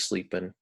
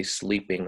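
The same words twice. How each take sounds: First: "sleeping" ending in a plain n, no g; dropped final G. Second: Said in the usual way. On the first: Shown as a demonstration. Teacher showing students casual speech, "sleeping" with dropped G. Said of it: "people frequently drop the, kind of the final G". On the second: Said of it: "we don't say sleeping".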